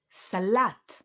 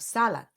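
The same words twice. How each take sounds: First: "Salat" with the LAT stressed; sa-LAT, punch the last syllable of "Salat"; stress on second syllable. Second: "salat" wrongly stressed on SA; SA-lat, punch the first syllable of "salat". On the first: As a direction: say "Salat" with weight on its end. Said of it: "the stress falls on the second syllable". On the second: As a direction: say "salat" with weight up front. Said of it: "instead of salat". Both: Shown as a demonstration.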